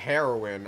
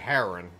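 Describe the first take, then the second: First: The last syllable is pronounced clearly. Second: The last syllable is garbled or missing. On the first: The speaker calls it right. "instead of heroin" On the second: The speaker calls it wrong. "I couldn't get the last syllable out"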